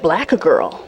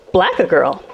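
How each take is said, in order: First: Low, flat imitation of the driver; low mock driver. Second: Baffled repeat. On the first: Comedian repeating the driver's insult in a low mock voice. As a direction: drop the voice low and mock him. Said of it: "He said". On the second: Real, not acted.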